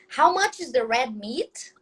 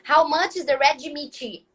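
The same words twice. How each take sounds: First: The words are said without extra syllables. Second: Extra syllables are added to the ends of words. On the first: The speaker calls it right. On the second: The speaker calls it wrong.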